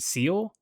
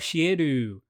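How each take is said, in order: First: The name is one English-style syllable. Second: The name has three Japanese-style syllables. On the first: "I assume it's just Seal" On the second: "her Japanese pronunciation"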